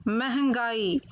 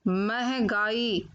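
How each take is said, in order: The two takes are said the same way.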